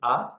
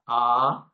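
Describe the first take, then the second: First: The vowel is held very briefly. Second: The vowel is held about twice as long. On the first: "Hraswa Dirgha Pluta. Hraswa is A"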